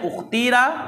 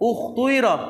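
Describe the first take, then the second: First: The middle vowel is a plain 'ee' sound. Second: The middle vowel mixes rounded 'oo' with 'ee'.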